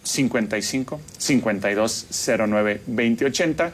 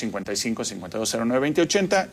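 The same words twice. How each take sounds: First: It is said more slowly. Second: It is said at normal speed.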